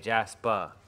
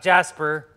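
First: The word ends in an open ah, no r. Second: The word ends with a clear r sound. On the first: The speaker calls it right. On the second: The speaker calls it wrong. "not Jasper"

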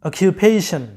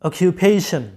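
Both takes have the same delivery.

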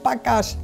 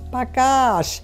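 First: The final syllable is short and clipped. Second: The final syllable is drawn out long. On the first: The speaker calls it wrong. "nicht Bagasch" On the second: The speaker calls it right. "Ihr müsst immer aufs Hintere langzogen"

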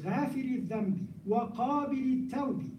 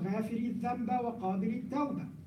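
First: The nouns end with an i vowel. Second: The nouns end with an a vowel. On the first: The nouns are in the genitive case. The speaker calls it right. "but it's" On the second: The nouns are in the accusative case. The speaker calls it wrong.

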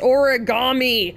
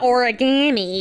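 First: The ending does not sound like gammy. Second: The ending sounds like the word gammy. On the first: The speaker calls it right. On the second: The speaker calls it wrong.

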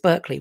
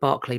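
First: It is said the American way. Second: It is said the British way. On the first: "I think it's Berkeley" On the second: "We call it Berkeley, but I think it's different in the States"

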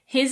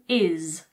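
First: The word is said in full with its H. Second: The word is reduced with the H dropped.

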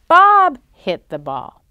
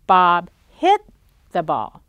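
First: The stress is on the word Bob. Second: The stress is on the word hit. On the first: It tells who hit the ball. ""Who hit the ball?"" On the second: It tells what Bob did to the ball. "Did Bob kick the ball? No"

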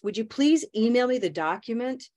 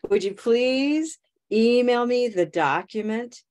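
First: The sentence is spoken at a fast pace. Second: The sentence is spoken at a slower pace.

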